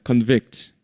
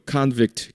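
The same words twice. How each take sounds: First: Convict with a weak con and stressed VICT; second-syllable stress. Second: Convict with strong KAHN, lighter vict; first-syllable stress. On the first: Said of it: "뒤에 강세가 있습니다". (Convict를 동사로, 뒤 음절 vict에 강세) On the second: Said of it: "명사일 때는". (convict를 명사로, 앞 음절 con에 강세) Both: Shown as a demonstration.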